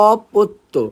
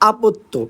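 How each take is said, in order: First: The first vowel is a rounded 'o' sound. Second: The first vowel is an open 'a' sound. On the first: The speaker calls it right. "উচ্চারণ হলো অপত্য" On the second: The speaker calls it wrong. "Not আপত্য"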